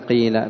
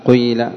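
First: The first vowel is a pure i sound. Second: The first vowel is i with a hint of u. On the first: "الفصحى كسر الأول فتقلب الألف ياء" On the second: "الثانية الإشمام ... إشمام الكسر شيئا من الضم"

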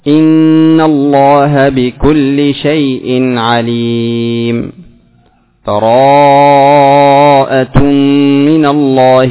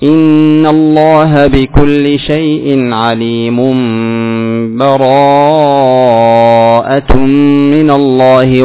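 First: A full stop with a new breath between phrases. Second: The phrases run together with no stop between. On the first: "فالوقف" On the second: "والوصل"

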